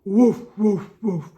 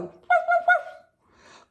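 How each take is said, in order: First: Low barking woof; big dog woof. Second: High yappy little woofs; little dog woof. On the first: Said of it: "Are we a big dog?". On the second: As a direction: yip like a tiny dog. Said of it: "Are we a little dog?". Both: Acted.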